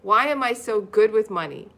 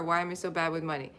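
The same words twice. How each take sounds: First: Louder, proud "good with money"; upbeat affirmation. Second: Quick, softer self-doubting mumble of "bad with money"; mopey negative thought. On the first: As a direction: say it like the happy opposite. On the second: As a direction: toss off the negative thought fast. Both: Shown as a demonstration. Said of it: "The opposite of it".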